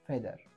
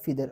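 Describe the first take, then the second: First: The first vowel sounds like the vowel in bed. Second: The first vowel sounds like the vowel in feed. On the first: "याचा उच्चार इथे ए असा झालेला आहे" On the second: "काही लोक याला फिदर असं पण म्हणतात"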